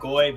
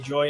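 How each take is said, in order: First: The syllable begins with a hard G sound. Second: The syllable begins with a soft J sound. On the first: The speaker calls it right. "the hard G sound" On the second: The speaker calls it wrong. "if they say joy instead of goy"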